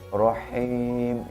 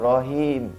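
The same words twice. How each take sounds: First: The h sound is strongly breathy. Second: The h sound is plain and light. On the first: The speaker calls it right. "seperti orang makan pedas" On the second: The speaker calls it wrong. "jangan rohim, itu salah bacanya"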